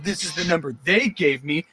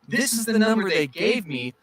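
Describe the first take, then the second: First: It is said in a superior, dismissive tone. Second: It is said in a sorry, gentle tone. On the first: The listener is wasting the caller's time. The speaker calls it wrong. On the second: The caller regrets bothering a stranger. The speaker calls it right.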